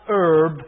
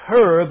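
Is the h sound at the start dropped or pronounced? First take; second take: dropped; pronounced. First: The word begins without any h sound. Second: The word begins with a clear h sound. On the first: The speaker calls it wrong. "not herb" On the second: The speaker calls it right. "Now notice it's got a H on it. It's herb"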